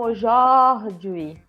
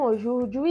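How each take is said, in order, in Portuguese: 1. A segunda sílaba tem a vogal 'oh'. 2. A segunda sílaba tem a vogal 'oo'. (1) "eles falam aujourd'hui. ... era ojó" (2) "lá eles não falam aujourd'hui"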